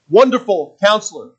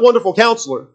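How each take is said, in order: First: A pause separates the two words. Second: The two words run together without a pause. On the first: They are two separate names. The speaker calls it right. "Those are two separate names for him" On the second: It is one name describing a counselor. The speaker calls it wrong. "Not Wonderful Counselor. That's what the other versions say"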